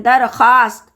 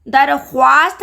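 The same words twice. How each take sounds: First: दरख्वास्त said as darkhast, with no w; silent w. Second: दरख्वास्त said with the w sounded; wrong with w. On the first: Teacher giving the right reading, silent w. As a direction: drop the व: darkhast. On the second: Teacher showing the wrong reading, w sounded. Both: Shown as a demonstration. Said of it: "दरख्वास्त नहीं पढ़ते हम".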